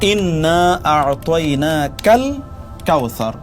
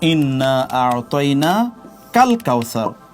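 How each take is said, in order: First: The syllable 'ka' is joined to the preceding word. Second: The syllable 'ka' is joined to the following word. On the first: The speaker calls it right. "এটি সঠিক।" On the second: The speaker calls it wrong. "তাহলে এটি ভুল।"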